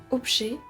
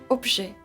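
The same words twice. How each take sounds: No difference in how they are said.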